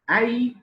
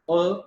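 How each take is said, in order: First: The word has a full, clear vowel. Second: The word has a short, reduced vowel. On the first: "in strong form" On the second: "in weak form"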